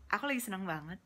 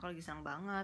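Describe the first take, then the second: First: It is said with a smile in the voice. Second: It is said without a smile in the voice.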